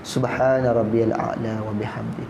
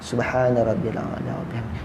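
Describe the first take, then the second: The two takes are said the same way.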